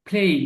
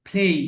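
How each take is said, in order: The two takes are said the same way.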